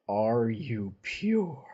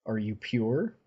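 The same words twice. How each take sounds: First: "Are you pure?" dragged out slowly and falling on "pure"; slow cold repeat. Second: "Are you pure?" asked lightly with a rising end; a plain question tilting up on "pure"; asking angel. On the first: Avacyn pressing Mocker, a slow, cold, falling repeat. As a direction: stretch each word out, ending flat and final. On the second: Avacyn asking Mocker, a light rising question. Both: Retold or imitated. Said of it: "she looks down at Mocker and says".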